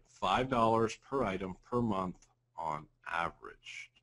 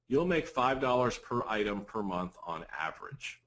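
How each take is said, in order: First: Slow, deliberate restatement; measured pace so it sinks in; slow repeat. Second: Said in the usual way. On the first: Real, not acted. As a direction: spell it out slowly, phrase by phrase. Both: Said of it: "let me say that slowly".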